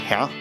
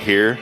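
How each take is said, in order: First: The word ends without any r sound. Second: The word ends with a clear r sound. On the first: "they say huh" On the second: "Instead of saying like here"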